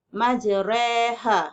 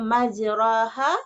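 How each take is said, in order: First: The middle vowel is between a and i. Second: The middle vowel is a clear open a. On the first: The speaker calls it right. "di antara bunyi fathah dan kasrah" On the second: The speaker calls it wrong.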